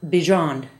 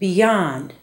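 First: The middle consonant is a J sound. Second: The middle consonant is a Y sound. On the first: The speaker calls it wrong. "not beyond" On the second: The speaker calls it right. "and beyond"

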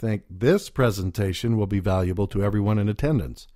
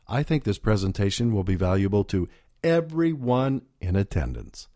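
First: The stress is on the word this. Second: The stress is on the word everyone.

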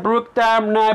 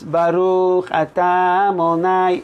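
First: Syllables are swallowed and the words run together. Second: Every syllable is pronounced clearly and fully. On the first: The speaker calls it wrong. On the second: The speaker calls it right.

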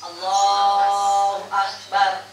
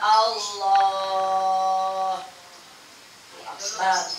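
First: The two words run together without a pause. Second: There is a pause between the two words. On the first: The speaker calls it right. "langsung Allahu Akbar" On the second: The speaker calls it wrong. "enggak ada Allah. Akbar. Napas dulu. Enggak boleh"

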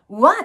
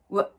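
First: The word is said fully with a clear vowel. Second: The word is reduced to a short weak syllable. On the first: The speaker calls it wrong. "what っていうふうに発音しないで" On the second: The speaker calls it right. "かなりリダクションされます"

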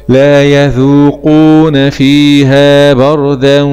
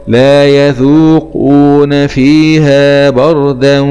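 Both takes have the same delivery.

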